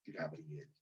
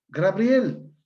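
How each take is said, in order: First: Said in the usual way. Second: "Gabriel" said as gra-BRIEL, extra R after G, loud; high, loud Gabriel with R in the first syllable; metathesis pronunciation. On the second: Shown as a demonstration. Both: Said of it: "palabra con metatesis".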